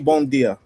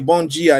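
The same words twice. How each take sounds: First: It is said with a Portugal-style hard d. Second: It is said with a Brazilian soft dj sound.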